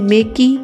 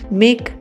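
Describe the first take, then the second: First: The final e is sounded as an extra vowel. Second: The final e is silent, ending on k. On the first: The speaker calls it wrong. "इसे मेकी नहीं बोलेंगे" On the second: The speaker calls it right. "मेक बोलेंगे"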